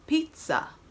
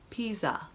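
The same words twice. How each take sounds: First: The middle consonant is a T-like sound. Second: The middle consonant is a buzzing Z sound. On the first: The speaker calls it right. "We use more of a T sound" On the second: The speaker calls it wrong. "We do not say pizza"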